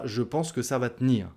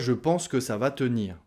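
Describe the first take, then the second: First: The e in 'tenir' is dropped. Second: The e in 'tenir' is fully pronounced. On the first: The speaker calls it right. "On dira ... en langage parlé. / on mange la voyelle" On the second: The speaker calls it wrong. "on ne dit pas"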